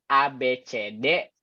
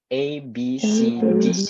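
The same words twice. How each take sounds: First: The letters are named with Indonesian letter sounds. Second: The letters are named with English letter sounds. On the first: The speaker calls it wrong. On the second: The speaker calls it right.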